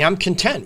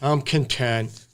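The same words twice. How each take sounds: First: It sounds happy and upbeat. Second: It sounds resigned, like settling.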